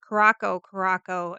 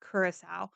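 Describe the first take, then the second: First: Curacao said as "kuh-ROCK-oh"; mistaken pronunciation. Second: Curacao said as "CURE-uh-sow"; correct pronunciation. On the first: Showing viewers the mistake, Curacao pronounced "kuh-ROCK-oh". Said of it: "all this time we've been calling". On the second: Correcting it for viewers, Curacao pronounced "CURE-uh-sow". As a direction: end Curacao softly on "sow", like "cow", no k. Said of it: "It's actually pronounced". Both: Shown as a demonstration.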